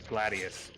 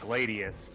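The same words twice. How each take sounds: First: It uses the classical Latin pronunciation. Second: It uses an ordinary, non-classical pronunciation.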